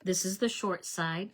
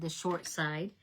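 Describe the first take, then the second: First: Said in the usual way. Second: Short lifted, set against long; stress on short. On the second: Shown as a demonstration. Crafter showing viewers which side, stressing short. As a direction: lean on the word short. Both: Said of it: "Not the long side".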